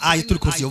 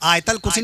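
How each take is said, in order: First: The vowel before the L sounds like 'u'. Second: The vowel before the L sounds like 'a'. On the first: The speaker calls it right. "आयतुल कुर्सी कहा कीजिए" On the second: The speaker calls it wrong. "तो आयतल कुर्सी नहीं"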